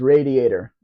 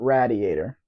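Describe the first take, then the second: First: It is said so it does not rhyme with gladiator. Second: It is said so it rhymes with gladiator. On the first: The speaker calls it right. "It was radiator" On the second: The speaker calls it wrong. "not radiator"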